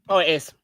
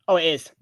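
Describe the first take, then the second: The two takes are said the same way.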